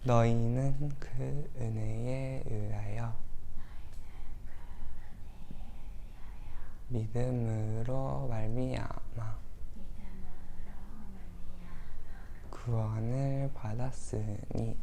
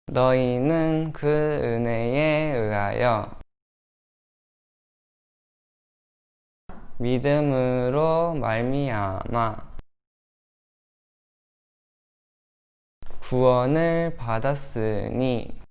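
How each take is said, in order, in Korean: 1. 부드럽고 조용한 목소리로 읽어요. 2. 보통 말하는 크기로 읽어요.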